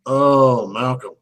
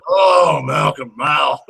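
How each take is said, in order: First: Moaning about the actor mid-movie, understated; mock lament. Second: Mock wail. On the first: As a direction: sigh the name in mock despair. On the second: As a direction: wail the name out in hammed-up despair. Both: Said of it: "I'm like".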